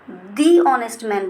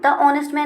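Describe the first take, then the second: First: 'The' is said with a long 'ee' vowel. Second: 'The' is said with a short 'uh' vowel. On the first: The speaker calls it right. "दी honest man बोलेंगे" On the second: The speaker calls it wrong. "द honest man नहीं बोलेंगे"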